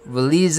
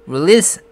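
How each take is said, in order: First: The word ends with a z sound. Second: The word ends with an s sound. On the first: The speaker calls it wrong. "release 하면서 실수를 하게 되는 거죠" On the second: The speaker calls it right. "release 안 하고"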